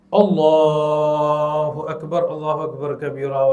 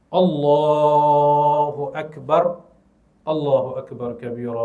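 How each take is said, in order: First: The first phrase runs straight on without a pause. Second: A pause of about one second follows the first phrase. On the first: "Lepas Allahu Akbar tu terus disambung" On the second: "Lepas kita takbir tu, mesti senyap untuk satu saat"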